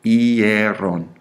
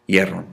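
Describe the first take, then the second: First: "Hierron" stretched slowly through every vowel; drawn-out model pronunciation. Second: Said in the usual way. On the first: Shown as a demonstration. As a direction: lead a class in a slow, sustained "Hierron". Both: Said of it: "Say it with me".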